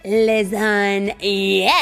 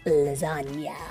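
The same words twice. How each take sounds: First: The word is shouted loudly. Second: The word is said at normal loudness.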